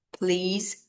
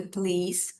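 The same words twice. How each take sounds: First: "Please" with the pitch rising at the end; polite rise on "Please". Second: Said in the usual way. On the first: Shown as a demonstration. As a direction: lift the tone up on "Please". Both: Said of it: "rise your tone".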